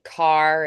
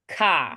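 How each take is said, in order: First: The final R sound is clearly pronounced. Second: The final R sound is dropped entirely.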